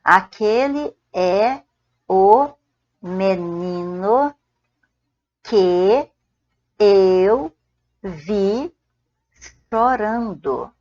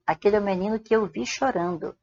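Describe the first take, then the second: First: Each word drawn out with pauses; slow spaced-out teacher dictation. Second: Said in the usual way. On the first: Shown as a demonstration. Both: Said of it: "você pode falar só assim".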